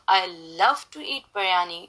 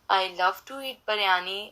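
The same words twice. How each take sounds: First: The word love carries strong stress. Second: All words are said flat, without stress. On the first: The speaker calls it right. "the stress I put on the word love" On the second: The speaker calls it wrong. "you can just say in a monotone"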